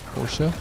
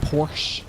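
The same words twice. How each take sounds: First: The final e is pronounced. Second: The final e is silent. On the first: The speaker calls it right. "The E is important" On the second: The speaker calls it wrong. "it's not Porsche"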